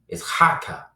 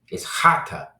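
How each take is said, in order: Both takes have the same delivery.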